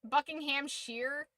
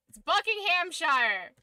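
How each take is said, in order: First: Buckinghamshire ending in "sheer", rising in disbelief; mocked "sheer" ending. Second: Buckinghamshire with the ending like "shyer", loud and high; insistent SHIRE pronunciation. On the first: Streamer quoting the rejected way, Buckinghamshire ending in questioning "sheer". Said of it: "It's not sheer". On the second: Streamer correcting viewers on Buckinghamshire, emphatic full "shire" ending. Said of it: "it's not pronounced that way". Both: Shown as a demonstration.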